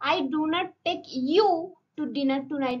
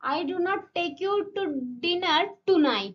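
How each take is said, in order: First: The word "you" carries the main stress. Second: The word "tonight" carries the main stress. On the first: Someone else will be taken, not you. "মানে আমি তোমাকে নিয়ে যাবো না, অন্য কাউকে।" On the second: It will not happen tonight, maybe another time. "মানে আজকে রাতে নিয়ে যাব না।"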